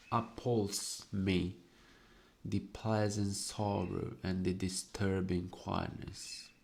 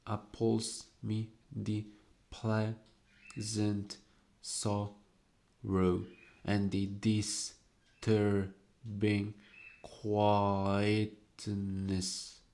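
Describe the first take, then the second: First: Said in the usual way. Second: Slow, word-by-word reading with pauses; slow deliberate reading. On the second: Shown as a demonstration. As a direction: savour each word slowly. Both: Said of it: "See carefully".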